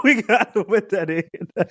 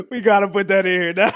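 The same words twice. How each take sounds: First: Repeated through laughter; giggling the line again; cracking up on the repeat; laughing. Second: Laughing. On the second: Laughing about adding the clip. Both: Real, not acted.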